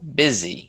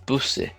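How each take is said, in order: First: It is said with its usual pronunciation. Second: It is said like the plural of bus.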